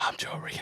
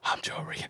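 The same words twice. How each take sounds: First: It is said softly in a whispery voice. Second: The same.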